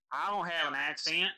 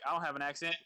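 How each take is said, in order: First: Put-on Southern accent laid on thick, a touch louder; mock-thick Southern accent denying it; hammed-up Southern accent. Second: Said in the usual way. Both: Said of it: "You just ham it up as much as possible".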